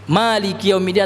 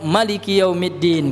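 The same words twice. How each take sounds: First: The vowel after the m is drawn out long. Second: The vowel after the m is kept short. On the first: The word means owner or ruler. "ma-nya dipanjangkan" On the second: The word means king. "bisa juga dipendekkan"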